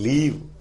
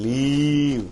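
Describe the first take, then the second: First: The vowel has a normal, unstretched length. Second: The vowel is stretched out very long. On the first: The speaker calls it right. "அப்படிதான்" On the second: The speaker calls it wrong. "Vowel வந்து நல்லா லென்தன் இழுப்பாங்க elastic மாதிரி"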